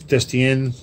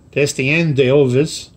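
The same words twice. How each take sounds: First: Destien said slowly in a self-consciously bad French accent. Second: Destien d'Elvis drawn out slowly in a put-on French accent; French accent retry. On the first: Model-ship vlogger tries the ship name Destien in a bad French accent. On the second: Vlogger retries the French ship name Destien d'Elvis in a mock French accent. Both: Shown as a demonstration. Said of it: "how's my French accent? Terrible".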